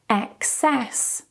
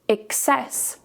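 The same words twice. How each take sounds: First: The first vowel is an e sound. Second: The first vowel is an i sound. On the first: "we change the first vowel to an e, like in Emma" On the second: "you can also change this to an I"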